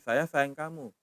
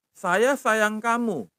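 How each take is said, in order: First: Said in the usual way. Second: Saya sayang kamu said slowly, higher, falling at the end; slow demo phrase. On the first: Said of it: "Itu sayang". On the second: Shown as a demonstration. Teacher modelling a phrase for students, slow falling tune. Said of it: "intonasinya ke bawah".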